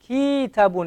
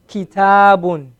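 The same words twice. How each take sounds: First: The first syllable has the long vowel. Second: The second syllable has the long vowel. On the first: The speaker calls it wrong. "I elongated the, the, the calf instead of the, the, um, the ta" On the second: The speaker calls it right.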